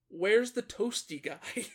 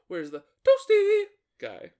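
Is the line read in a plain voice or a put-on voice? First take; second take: plain; put-on. First: It is read in a plain, ordinary voice. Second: It is read in an imitated character voice.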